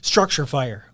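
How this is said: It is said in a slow, deliberate way. The call is serious. "It's very deliberate"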